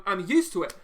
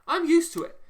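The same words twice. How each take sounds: First: Said in the usual way. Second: Much higher and louder outburst; shouting it out in real frustration; exasperated shout. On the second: Real, not acted. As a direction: blow up on the last repeat. Peak of the repeated rant.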